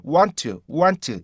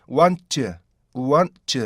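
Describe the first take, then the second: First: "want" with a full "tu" run straight on; wrong WANT TO. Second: "want" as "wan-tu", stopped before the weak ending; correct linked WANT. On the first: Teacher shows the mistake to avoid, unstopped "want". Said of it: "이렇게 발음하시면 안 돼요". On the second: Teacher shows the right form, linked "want". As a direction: hold the n, then release a light "tu" in "want". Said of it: "이렇게 되셔야 되는데". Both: Shown as a demonstration.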